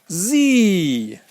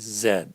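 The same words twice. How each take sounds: First: The letter is said the American way, zee. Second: The letter is said the Canadian way, zed.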